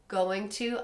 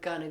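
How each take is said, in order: First: Both words are pronounced fully and separately. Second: The words are blended into one reduced word.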